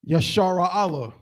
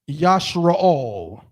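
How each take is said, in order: First: Each letter is said as its own syllable. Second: The letters are blended into fewer syllables. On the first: "if we just enunciated each letter on its own as its own syllable" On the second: "I would rather you say Yashara Allah than ever say Yashra'al"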